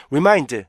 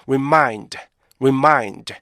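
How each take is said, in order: First: "remind" squashed short, beats missing; quick, even "remind" as a learner says it; rushed wrong REMIND. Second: "remind" with short "re", long falling "mind"; measured rip-MIND model; correct REMIND rhythm. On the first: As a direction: mimic a hurried, rhythmless "remind". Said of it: "이렇게 발음하시면 안 돼요". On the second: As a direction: give every beat of "remind" its time. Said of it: "이렇게 발음하셔야지". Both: Shown as a demonstration.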